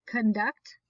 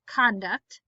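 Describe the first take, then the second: First: Conduct as kun-DUCT; stress on second syllable. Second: Conduct as KON-duct; stress on first syllable. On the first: Teacher reading word list aloud, stress on second syllable. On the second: Teacher reading word list aloud, stress on first syllable. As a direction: hit the Con in Conduct. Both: Shown as a demonstration. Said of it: "both of the different pronunciations".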